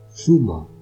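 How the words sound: The first consonant sounds like English th. "twice with a Spanish accent"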